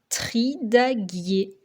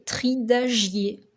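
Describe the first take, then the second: First: The middle consonant is a hard G sound. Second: The middle consonant is a soft J sound. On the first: The speaker calls it right. "Pour que la lettre G fasse bien le son G" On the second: The speaker calls it wrong. "si on avait oublié la lettre U"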